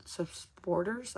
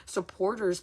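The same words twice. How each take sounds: First: "supporters" dragged out slowly, syllables fumbled, rising; stumbling pronunciation. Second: Said in the usual way. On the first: Shown as a demonstration. Struggling on a word with her viewers, "supporters" slow and unsure. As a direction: fumble "supporters" slowly like you can't get it out. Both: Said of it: "I don't even know how to fucking say it".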